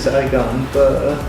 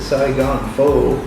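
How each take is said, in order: First: Pho is said with a Vietnamese sound. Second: Pho is said with an American English sound. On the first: This is how the name is really said. The speaker calls it right. "it's really" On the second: Said without knowing the original pronunciation. The speaker calls it wrong. "not knowing any different, we pronounce it"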